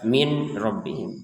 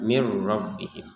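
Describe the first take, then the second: First: The n is pronounced clearly before the r. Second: The n merges into the following r sound. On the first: The speaker calls it wrong. "jangan dibaca jelas" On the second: The speaker calls it right.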